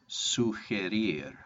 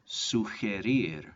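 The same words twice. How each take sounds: The two takes are said the same way.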